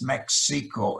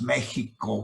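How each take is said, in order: First: The middle consonant is a plain non-guttural sound. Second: The middle consonant is a throaty guttural sound. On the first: "In English, it's Mexico" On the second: "In Spanish, it's pronounced Mexico with a guttural sound"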